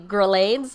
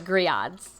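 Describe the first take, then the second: First: The word is said the English way, like grill. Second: The word is said the French way. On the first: The speaker calls it wrong. "when you first look at it, it's supposed to be" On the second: The speaker calls it right. "it's actually grillades, the French, the French way"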